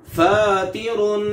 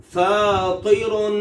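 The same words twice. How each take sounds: First: फातिरुन slow with a light, thin ता. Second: फातिरुन slow with a thick, heavy तो; slowly, full heavy to in फातिरुन; heavy emphatic to. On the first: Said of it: "पहले में ता है". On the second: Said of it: "दूसरे में तो है". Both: Shown as a demonstration.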